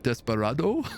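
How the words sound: It is said with a faint French accent. The listener understands the order at once. The speaker calls it right. "with a slight French accent"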